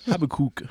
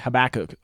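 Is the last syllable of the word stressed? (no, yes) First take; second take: yes; no. First: The last syllable is strongly stressed. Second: The last syllable is not stressed. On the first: "He would really emphasize the kook part" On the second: "which I don't think is how you pronounce it"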